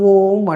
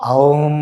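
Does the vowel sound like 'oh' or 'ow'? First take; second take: oh; ow. First: The vowel is a plain long 'oh' sound. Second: The vowel is a gliding 'ow' sound. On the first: This is the habitual common way of saying it. The speaker calls it wrong. "మనం ఇప్పుడు సామూహికంగా అలవాటు పడిపోయినాం, ఓం ఓం అంటున్నాం" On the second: This joins the three sounds a, u and m. The speaker calls it right. "దాన్ని ఉచ్చరించాల్సిన విధానం ఇది"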